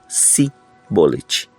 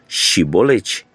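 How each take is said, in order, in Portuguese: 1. A palavra começa com o som simples de 's'. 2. A palavra começa com o som de 'sh'. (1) "não conseguiam articular e pronunciar o som de C H nessa palavra e a pronunciavam de forma diferente" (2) "Todos os que desejassem atravessar deveriam pronunciar a palavra Shibolete"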